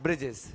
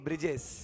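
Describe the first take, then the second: Both takes have the same delivery.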